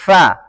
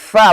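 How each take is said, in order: First: The lower lip touches the upper teeth, giving friction. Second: The sound is just blown out without lip-teeth contact. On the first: The speaker calls it right. "makhraj fa bibir bawah bertemu dengan ujung gigi di atas" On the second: The speaker calls it wrong. "Kalau ini meniup karena bukan dari makhrajnya"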